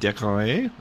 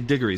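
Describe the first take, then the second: First: The name is said the Old French way. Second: The name is said the modern English way. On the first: This is how the name sounded in medieval times. "the name in Middle English and Old French would have been Decoray" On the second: This is how the name is said today. "we say it in modern English, we say Diggory"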